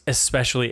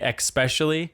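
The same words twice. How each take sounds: First: The first syllable is said with a plain s sound. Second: The first syllable is said with a ks sound. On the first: The speaker calls it right. "I tried so hard to convince her it was especially" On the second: The speaker calls it wrong. "would say especially"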